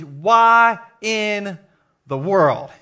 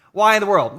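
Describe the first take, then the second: First: Why in the World boomed out like a headline; shouted title. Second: Said in the usual way. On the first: Shown as a demonstration. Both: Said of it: "I'm calling today's message".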